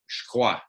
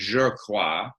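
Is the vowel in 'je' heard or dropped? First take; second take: dropped; heard. First: The vowel in 'je' is dropped. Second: The vowel in 'je' is fully pronounced. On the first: "he says je crois" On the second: "instead of saying je crois"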